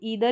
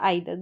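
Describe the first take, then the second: First: The first vowel sounds like ee. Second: The first vowel sounds like eye. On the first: "ईदर या आइदर दोनों तरीके से pronounce करते हैं" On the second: "ईदर या आइदर दोनों तरीके से प्रोनाउंस करते हैं"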